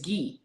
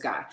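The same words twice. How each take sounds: First: The name is said with a French pronunciation. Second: The name is said with an English pronunciation. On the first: "the proper pronunciation in French is Guy" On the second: "you told us it was Guy"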